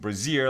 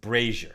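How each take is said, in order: First: It sounds like the word brassiere. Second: It does not sound like brassiere. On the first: The speaker calls it wrong. "which I was pronouncing brazier, like a woman's brazier" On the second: The speaker calls it right. "That's pronounced brazier"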